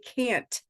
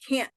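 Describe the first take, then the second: First: It ends with a clear T sound. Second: It ends with a stop in the throat. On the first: "We expect it to be can't" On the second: "that's the same sound in can't"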